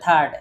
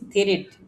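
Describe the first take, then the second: First: It sounds like third, with a final d. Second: It sounds like thrit, with a final t. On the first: The speaker calls it right. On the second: The speaker calls it wrong.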